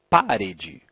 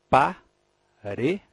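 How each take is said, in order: First: Parede as PA-rede, first syllable long and loud; misplaced stress. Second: Parede very slow, pa-RE-de, RE stressed; syllable-by-syllable demo. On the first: Teacher showing what no native speaker says, parede wrongly stressed on PA. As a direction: punch PA in parede, slow and louder. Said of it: "Nenhum falante da língua vai dizer". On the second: Teacher showing the class the tonic syllable, parede slowly split with RE stressed. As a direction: break parede into syllables, lifting RE. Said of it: "quando você pronuncia a palavra devagar". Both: Shown as a demonstration.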